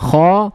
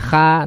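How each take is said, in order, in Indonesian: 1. Bunyi kha berat dan terangkat. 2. Bunyi kha ringan dan tipis. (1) "hurufnya tebal" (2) "bukan kha"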